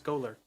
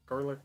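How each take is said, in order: First: The first syllable has no R sound. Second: The first syllable has an R sound. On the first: The speaker calls it right. "there's no R. It's Golurk" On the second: The speaker calls it wrong.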